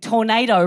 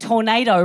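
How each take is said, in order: First: The middle consonant sounds like a soft D. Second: The middle consonant sounds like a soft D.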